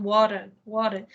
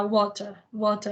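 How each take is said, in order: First: Water with the American flapped T; American "water", T as a quick tap; American accent. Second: Water with a clear British T; British "water", T sounded crisply; British accent. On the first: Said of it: "sotaque americano". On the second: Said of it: "estudar com o sotaque britânico". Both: Shown as a demonstration.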